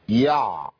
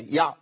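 First: The ain sound is stretched out with effort. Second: The ain sound is stopped abruptly with no resonance. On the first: "ده صوت طبيعي؟ مش طبيعي" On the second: "قطعت الصوت"

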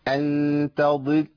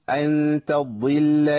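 Both takes have the same delivery.

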